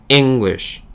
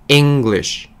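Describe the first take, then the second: The two takes are said the same way.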